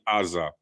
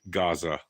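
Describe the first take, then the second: First: The word begins directly with a vowel. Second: The word begins with a plain hard G. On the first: "it's really Aza, like the old Hebrew name" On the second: "It's Gaza with a G"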